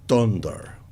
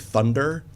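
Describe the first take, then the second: First: It is said in a Hungarian-style foreign accent. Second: It is said in a plain English accent. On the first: "one thing she said was uh, like, ... it's thunder" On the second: "instead of saying thunder"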